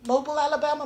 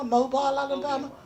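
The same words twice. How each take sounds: First: "Mobile" said as MOH-bul; "Mobile" with a short, unstressed second syllable; variant pronunciation. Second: "Mobile" said as MOH-bile; "Mobile" with a long i in the second syllable; variant pronunciation. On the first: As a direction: rhyme the end of "Mobile" with noble. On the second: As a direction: rhyme the end of "Mobile" with smile. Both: Shown as a demonstration. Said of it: "you know the place".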